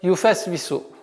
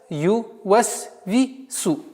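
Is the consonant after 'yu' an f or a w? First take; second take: f; w. First: The consonant after 'yu' is an f. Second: The consonant after 'yu' is a w. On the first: The speaker calls it wrong. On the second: The speaker calls it right.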